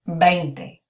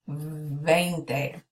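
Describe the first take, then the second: First: The first consonant sounds like a B. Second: The first consonant is a buzzing V sound. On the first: The speaker calls it right. "we would say this like a B" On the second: The speaker calls it wrong. "So it's not veinte"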